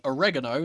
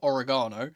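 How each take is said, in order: First: It is said in an American accent. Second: It is said in a British accent. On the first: "I'm becoming a bit American. ... accidentally saying oregano" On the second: "instead of oregano"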